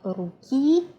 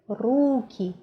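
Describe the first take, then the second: First: The stress is on the last syllable. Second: The stress is on the first syllable. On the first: The speaker calls it wrong. "It's not ruki" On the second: The speaker calls it right. "it's ruki, the previous syllable"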